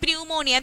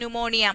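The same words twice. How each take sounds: First: The word begins with a sounded P. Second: The word begins with a silent P. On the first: The speaker calls it wrong. "funny when he said that" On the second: The speaker calls it right. "We know that word should pronounce as"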